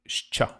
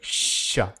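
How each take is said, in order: First: It is said as sh followed by ch. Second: It is said as a single sh sound. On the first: This is the Ukrainian way of saying the letter. "Ukrainian, they made it like shcha" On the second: This is the Russian way of saying the letter. "in Russian. They just made it hard, like sha"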